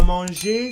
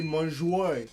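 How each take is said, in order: First: Said in the usual way. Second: Manger dit « manjoué », lentement. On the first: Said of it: "À manger, c'est mon jouet". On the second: Shown as a demonstration. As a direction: finir manger en « oué ». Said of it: "Le son E devient Oé". (« manjoué » à la québécoise)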